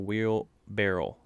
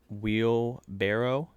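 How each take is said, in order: First: The word ends with a 'barrel' sound. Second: The word ends with a 'barrow' sound. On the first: The speaker calls it wrong. "It's not a wheel barrel" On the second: The speaker calls it right. "it's pronounced wheelbarrow"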